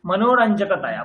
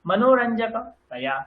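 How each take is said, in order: First: মনোরঞ্জকতয়া in one unbroken sweep; connected মনোরঞ্জকতয়া without a pause; run together. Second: Slow মনোরঞ্জকতয়া with a gap before taya; segmented মনোরঞ্জকতয়া, ending set apart; split before taya. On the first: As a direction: join taya straight onto the stem in মনোরঞ্জকতয়া. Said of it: "তয়াটাকে একসাথে উচ্চারণ করুন।". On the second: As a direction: stem as one block, pause, then taya in মনোরঞ্জকতয়া. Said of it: "এইরকম ভাবে উচ্চারণ করলে". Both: Shown as a demonstration.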